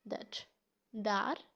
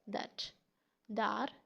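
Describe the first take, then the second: The two takes are said the same way.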